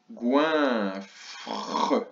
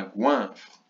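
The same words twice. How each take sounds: First: Goinfre slowly, long GOIN, then separate FRE; split in syllables. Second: Said in the usual way. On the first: Shown as a demonstration. Teacher breaking down goinfre for pupils, split syllables. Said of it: "le son ouin dans la première syllabe". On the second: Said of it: "le mot goinfre".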